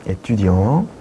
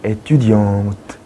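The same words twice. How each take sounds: First: Étudiant ending on the nasal vowel, no t sound; silent final t. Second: Étudiante with a clear t sound at the end; sounded final t. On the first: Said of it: "여성일 때는". (트 발음 없이) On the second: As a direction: land on the t of étudiante. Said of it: "트 발음이 나야 되는 거죠". (끝의 트 발음을 살려서) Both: Shown as a demonstration.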